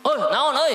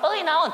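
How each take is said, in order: First: High shouted reply; answering shout. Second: High short shouted answer; shouted reply. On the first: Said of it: "nada yang sama kerasnya". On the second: Prophet answering the Bedouin with a shout. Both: Retold or imitated.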